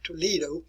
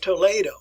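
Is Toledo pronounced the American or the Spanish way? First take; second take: American; Spanish. First: Toledo is pronounced the American way. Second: Toledo is pronounced the Spanish way. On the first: The speaker calls it wrong. "as we say in the United States" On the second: The speaker calls it right. "that's the way you want to pronounce it"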